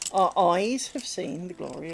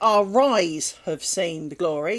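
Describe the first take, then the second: First: Eyes starts cleanly with no linking r sound. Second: An r sound links into eyes, like rise. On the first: It refers to the eyes. The speaker calls it right. "They are our eyes, not our rise" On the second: It sounds like someone rose. The speaker calls it wrong. "Do not say our eyes have seen the glory, because you did not rise"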